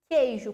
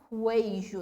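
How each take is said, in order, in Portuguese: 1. O u é mudo, dando um início k simples. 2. O u é pronunciado, dando um início kw. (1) "eu falo queijo. Q e U formam... o mesmo som" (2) "eu não falo queijo"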